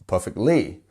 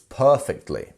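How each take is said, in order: First: The stress falls on a later syllable. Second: The stress falls on the first syllable. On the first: The speaker calls it wrong. "Not perfectly" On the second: The speaker calls it right. "that is our stress syllable, our first syllable here"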